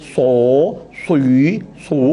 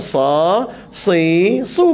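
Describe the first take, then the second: First: The syllables are said with heavily rounded, pushed-out lips. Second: The syllables are said with only slightly rounded lips. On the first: The speaker calls it wrong. "bukan macam tu" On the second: The speaker calls it right. "Bukan muncung sangat, sikit je"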